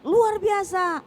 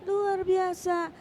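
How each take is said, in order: First: It is said energetically, with high spirit. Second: It is said sleepily, with low energy.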